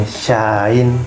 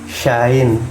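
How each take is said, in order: No difference in how they are said.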